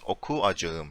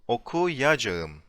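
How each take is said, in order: First: The two vowels are split by a short stop. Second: A y sound glides smoothly between the vowels. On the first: The speaker calls it wrong. "If you remove the buffer, ... you can hear a stop, like a pause" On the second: The speaker calls it right. "when you insert it, ... there's no pause, there's no stop"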